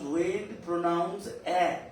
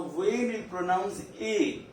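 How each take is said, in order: First: "A" said as open "eh", French è; teacher showing "A" as in "air"; open A sound. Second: "A" said as "ay", French é; teacher showing "A" as in "may"; closed A sound. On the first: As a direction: end on "A" as a drawn open "eh". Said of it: "the different type of pronunciation". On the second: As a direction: end on "A" as a closed "ay". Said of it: "That is sound A". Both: Shown as a demonstration.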